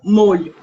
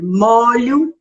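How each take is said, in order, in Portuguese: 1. O o tônico é uma vogal fechada. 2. O o tônico é uma vogal aberta. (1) "e não molho" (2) "é aberto, é molho de chaves"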